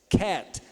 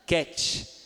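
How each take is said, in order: First: It is said with an English accent. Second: It is said with a Brazilian Portuguese accent. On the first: The speaker calls it right. "mas não é cat, é cat" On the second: The speaker calls it wrong. "A gente vai falar cat"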